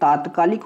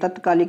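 First: The first vowel is a long 'aa'. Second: The first vowel is a short 'a'. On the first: The speaker calls it right. "ये तात्कालिक होता है" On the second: The speaker calls it wrong. "तत्कालिक नहीं होता मेरे भाई"

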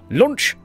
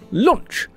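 First: The voice leaps upward through the word. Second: The voice stays level through the word. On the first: The speaker calls it wrong. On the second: The speaker calls it right.

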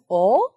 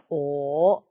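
First: The pitch rises like a question. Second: The pitch dips low. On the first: "이성" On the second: "삼성 낮게"

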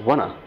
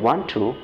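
First: It is reduced and blended into one word. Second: It is said as two full words. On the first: This is how native speakers say it informally. "ওরা বলছে ওয়ানা" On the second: This is how learners usually say it. "আমরা যেটা বলি ওয়ান টু"

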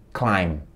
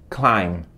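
The two takes are said the same way.

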